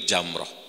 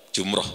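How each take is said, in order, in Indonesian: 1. Vokal pertama terdengar seperti 'a'. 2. Vokal pertama terdengar seperti 'u'. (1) "yang betul itu Jamrah" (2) "tapi Indonesia masyhurnya apa?"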